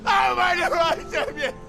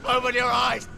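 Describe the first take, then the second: First: Very high, anguished shout; frantic scream. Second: High, strained cry; desperate plea. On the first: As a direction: scream at him to wake. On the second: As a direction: beg him to wake, voice pitched way up. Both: Acted. Begging dying brother to wake.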